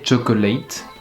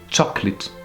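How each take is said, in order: First: The last vowel is a full 'ay' sound. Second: The last vowel is an 'ih' sound. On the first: The speaker calls it wrong. "Jamais chocolate" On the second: The speaker calls it right. "on peut utiliser une nouvelle fois le son I"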